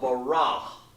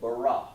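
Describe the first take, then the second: First: The word ends with an audible breathy h. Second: The word ends cleanly on the vowel. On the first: The speaker calls it wrong. "I could say baraha or barah, but I didn't say that" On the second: The speaker calls it right. "I just said bara"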